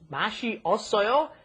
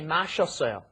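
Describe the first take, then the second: First: The two vowels are said separately. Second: The two vowels are merged into one syllable.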